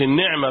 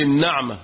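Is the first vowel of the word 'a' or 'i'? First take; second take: i; a. First: The first consonant carries an 'i' vowel. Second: The first consonant carries an 'a' vowel. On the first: It means a blessing, the opposite of affliction. The speaker calls it wrong. "مش النعمة بكسر النون" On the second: It means luxury or comfortable living. The speaker calls it right. "قول النعمة بفتح ليه؟ النون"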